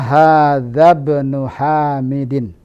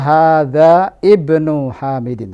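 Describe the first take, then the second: First: Hadza runs straight into bnu without that vowel. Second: The vowel starting ibnu is pronounced separately. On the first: The speaker calls it right. "Yang benar adalah" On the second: The speaker calls it wrong.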